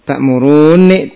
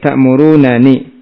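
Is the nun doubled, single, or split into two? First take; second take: doubled; split. First: A long doubled n sound is heard. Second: Two separate n sounds with a vowel between. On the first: The two nuns are merged into one. "dengan didohomkan" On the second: The two nuns are kept apart.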